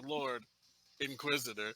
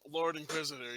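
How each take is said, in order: First: A short breath pause separates the two words. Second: The two words run together without a pause. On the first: It is a form of address followed by a role. The speaker calls it right. "you say" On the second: It is a single title. The speaker calls it wrong. "instead of saying"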